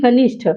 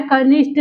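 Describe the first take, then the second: First: कनिष्ठ ending in aspirated ठ, as kanishṭh; कनिष्ठ closed on a clear ठ; correct form. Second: कनिष्ठ ending in plain ट, as kanishṭ; कनिष्ठ with unaspirated final sound; incorrect form. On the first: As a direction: puff the final sound of कनिष्ठ. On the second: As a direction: drop the breath from the end of कनिष्ठ. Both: Shown as a demonstration. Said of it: "लेकिन शुद्ध रूप क्या है".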